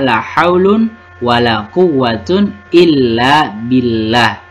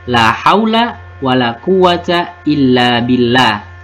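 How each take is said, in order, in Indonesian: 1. Kata bendanya berakhiran -un, dengan tanwin. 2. Kata bendanya berakhiran -a pendek, tanpa tanwin. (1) "boleh dibaca marfu" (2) "boleh mabni dengan tanda nasabnya"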